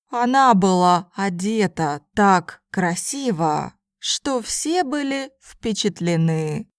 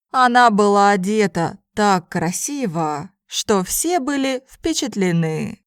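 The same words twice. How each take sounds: First: It is spoken slowly and carefully. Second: It is spoken at a normal conversational pace. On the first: "first in slow Russian" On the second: "then in normal speed Russian"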